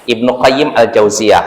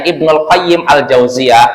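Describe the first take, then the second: First: The first word ends in a plain vowel. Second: The first word ends with a linked l. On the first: The speaker calls it right. "Jadi Bapak cara bacanya Ibnu Qayyim Al-Jauziyah" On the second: The speaker calls it wrong.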